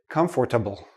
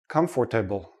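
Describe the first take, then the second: First: The word is said with four full syllables. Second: The same.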